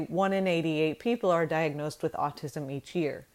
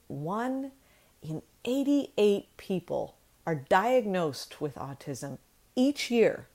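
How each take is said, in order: First: It is said evenly, without pauses or added emphasis. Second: It is said with pauses and strongly emphasized words. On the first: "saying it straight like I just did" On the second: "I sort of paused but mostly emphasized certain words"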